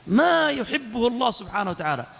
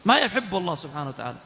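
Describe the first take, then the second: First: "ما يحبه" stretched and raised in pitch; emphatic repetition. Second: Said in the usual way. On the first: Real, not acted. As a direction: lean long on "ما يحبه", then release. Warning repeated for emphasis.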